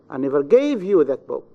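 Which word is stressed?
gave. The stress falls on the word gave. "In the third, in the verb gave"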